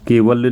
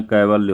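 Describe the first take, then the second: First: केवल्य with a plain e in the first syllable; the wrong form, first syllable ke; wrong e vowel. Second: कैवल्य with an open ai in the first syllable; the right form, first syllable kai; correct ai vowel. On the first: Teacher names the mistake, first syllable ke. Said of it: "केवल्य नहीं होता". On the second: Teacher gives the correct form, first syllable kai. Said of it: "यहाँ कैवल्य होता है". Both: Shown as a demonstration.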